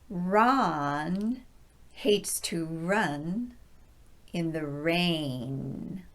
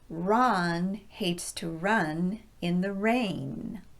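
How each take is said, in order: First: The sentence is spoken very slowly. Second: The sentence is spoken a bit faster. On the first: "very slowly the first time" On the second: "a little bit faster the second time"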